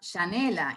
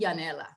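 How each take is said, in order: First: The name is said with an Argentine pronunciation. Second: The name is said with a non-Argentine pronunciation. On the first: This is how people in Argentina say it. "in Argentina" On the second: This is how most friends outside Argentina say it. "for most of my friends"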